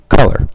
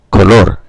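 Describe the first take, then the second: First: "color" stressed on COL, English style; stress on first syllable. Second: "color" as co-LOR, both O's pure; Spanish end stress. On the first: Teacher correcting himself on where English stress falls, first-syllable stress on "color". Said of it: "the intonation's on the first syllable". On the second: Teacher contrasting Spanish with English, end-stressed Spanish "color". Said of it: "at the end is stressed". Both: Shown as a demonstration.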